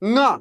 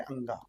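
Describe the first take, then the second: First: It is said as one nasal syllable, 'nga'. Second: It is said as two syllables, 'an-ga'. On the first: The speaker calls it right. "ना पढ़ते हैं साथियों" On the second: The speaker calls it wrong. "अंगा नहीं बल्कि उसको क्या पढ़ते हैं?"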